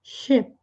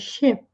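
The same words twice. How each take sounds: First: The vowel is relaxed, between 'i' and 'e'. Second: The same.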